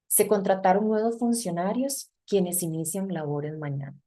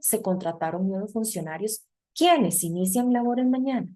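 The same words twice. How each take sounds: First: It has plain statement intonation throughout. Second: It has question intonation on the second half. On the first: It states who starts work tomorrow. The speaker calls it right. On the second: It asks who starts work tomorrow. The speaker calls it wrong.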